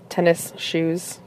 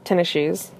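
First: The two words are said separately and clearly. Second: The two words are slurred together.

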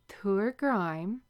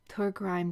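First: The phrase is said slowly. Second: The phrase is said at a normal pace.

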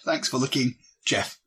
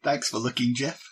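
First: There is a clear pause before Jeff. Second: It runs straight on with no pause before Jeff.

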